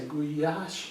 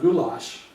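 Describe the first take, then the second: First: The middle consonant is a Y sound. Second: The middle consonant is an L sound. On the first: The speaker calls it right. "you notice I say guyash? ... The L Y is Y sound" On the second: The speaker calls it wrong. "It's not goulash"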